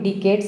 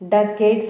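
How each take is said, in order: First: The first syllable is said with an 'i' vowel. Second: The first syllable is said with an 'a' vowel. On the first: The speaker calls it wrong. "చాలామంది డికేట్స్ అంటూ ఉంటారు" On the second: The speaker calls it right. "డకేట్స్ అని పలకాలండి"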